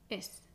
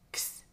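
First: The x is sounded as a plain s. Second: The x is sounded emphatically as k plus s. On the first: "pronunciar la X como una S" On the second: "si pronunciamos de manera más enfática... Es el sonido de la K y de la S juntas"

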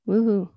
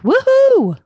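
First: It is said flatly, without excitement. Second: It is said with lively excitement.

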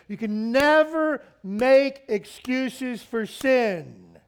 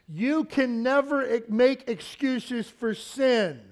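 First: It is said at a louder volume. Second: It is said at a normal volume.

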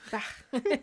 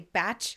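First: The name does not sound like 'batch'. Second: The name sounds like the word 'batch'. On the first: The speaker calls it right. "And I say it correctly" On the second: The speaker calls it wrong. "I don't say batch"

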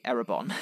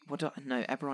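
First: The name is said as Erebon. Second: The name is said as Eberron. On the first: The speaker calls it wrong. "I used to say Erebon" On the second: The speaker calls it right. "Eberron is right"

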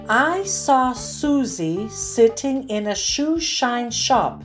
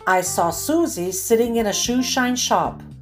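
First: The sentence is read at a slow pace. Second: The sentence is read at a faster pace. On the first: "I'll read each one slowly" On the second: "the second time a bit faster"

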